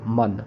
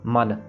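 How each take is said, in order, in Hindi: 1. स्वर नासिक्य है, नाक से निकलती ध्वनि के साथ। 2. स्वर सादा है, नासिक्य ध्वनि के बिना। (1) "नाक से आवाज आएगी उसमें।" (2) "सो मन प्लेन।"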